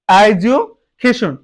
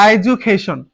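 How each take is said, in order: First: education slow, broken as "edu, cation"; split into parts. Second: Said in the usual way. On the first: Shown as a demonstration. Teacher showing an example word, education split as "edu, cation". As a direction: pause inside education before the last two syllables. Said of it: "এটাকে আমরা ভাগ করলে". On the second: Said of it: "যেমন এখানে দেখো আমি এখানে লিখেছি".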